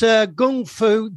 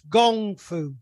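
First: It is said with the Cantonese pronunciation. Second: It is said with the Mandarin pronunciation. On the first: "But it's Cantonese, it's G-U-N-G" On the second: "If it's Mandarin, it's gongfu"

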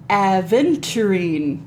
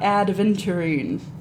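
First: It is said with no 'd' sound before 'v'. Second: It is said with a 'd' sound before 'v'. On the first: The speaker calls it right. "and aventurine" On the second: The speaker calls it wrong. "Not adventurine"

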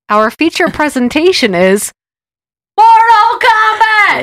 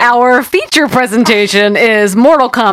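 First: It is screamed like the angry announcer guy. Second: It is said in a plain, normal voice.

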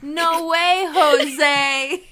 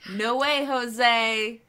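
First: The phrase is said loudly, with more energy. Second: The phrase is said quietly, with little energy. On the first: The speaker calls it right. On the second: The speaker calls it wrong.

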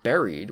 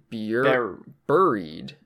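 First: The first syllable does not sound like 'fury'. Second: The first syllable sounds like 'fury'. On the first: The speaker calls it right. "I think it's actually pronounced buried" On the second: The speaker calls it wrong. "like bureau or fury, like, mm-hmm. you would say it like buried"

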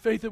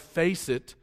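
First: The s sound comes out lisped, like th. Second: The s sound is said clearly. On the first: "but he had a lisp" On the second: "this guy would try to say"

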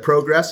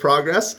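First: It is said with a Canadian pronunciation. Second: It is said with a non-Canadian pronunciation. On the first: "when you said progress" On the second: "instead of progress"

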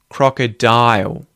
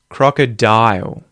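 First: The final L sounds like a rounded ooh. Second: The final L sounds like a rounded ooh.

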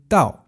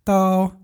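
First: The pitch falls sharply from high to low. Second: The pitch stays high and level.

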